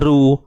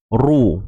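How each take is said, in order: First: The r is said thin and light. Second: The r is said thick and heavy. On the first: The speaker calls it wrong. "Kalau kita lemahkan bunyi dia, dia jadi macam mana?" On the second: The speaker calls it right. "kita kena te tebalkan ru"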